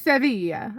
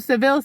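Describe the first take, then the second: First: The name is pronounced the Spanish way. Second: The name is pronounced the English way.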